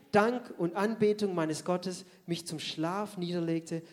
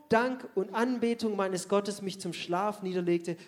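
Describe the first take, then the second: No difference in how they are said.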